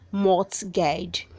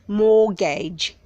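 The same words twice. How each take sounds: First: The T sound is pronounced. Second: The T sound is silent. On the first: The speaker calls it wrong. "don't say mortgage" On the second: The speaker calls it right. "The T is silent"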